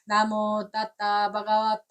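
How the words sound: The second word has a t sound in the middle.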